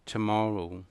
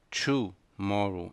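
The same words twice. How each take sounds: First: "tomorrow" with a reduced tə start; "tomorrow" said as tə-MOR-row; "tomorrow" with a light first syllable; correct tomorrow. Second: "tomorrow" with a Brazilian tchu start; wrong tomorrow. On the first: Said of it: "é". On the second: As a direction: mispronounce "tomorrow" as tchu-morrow. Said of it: "Não é tomorrow". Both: Shown as a demonstration.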